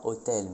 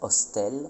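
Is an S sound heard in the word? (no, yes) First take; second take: no; yes. First: The word is said with no S sound. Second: The word is said with an S sound. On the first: This is the modern pronunciation. "pas hôtel" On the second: This is the Old French pronunciation. "mais hostel"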